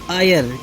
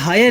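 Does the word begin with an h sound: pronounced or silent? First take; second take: silent; pronounced. First: The word begins with a vowel, no h. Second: The word begins with an audible h sound. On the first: The speaker calls it right. "ये आयर है, एच इसमें silent रहता है" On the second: The speaker calls it wrong. "ये हायर नहीं"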